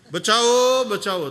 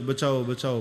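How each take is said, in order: First: High, loud cry for help; shouting for help. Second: Said in the usual way. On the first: Acted. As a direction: yell for rescue. Grandfather cries help in well. (મદદ માટે જોરથી બૂમ)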